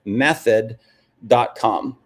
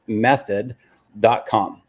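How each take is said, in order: Both takes have the same delivery.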